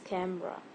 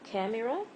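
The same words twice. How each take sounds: First: The middle vowel is silent, leaving two syllables. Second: The middle vowel is pronounced as a full syllable. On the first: The speaker calls it right. "it's camera. So the E is silent" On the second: The speaker calls it wrong. "It's not camera"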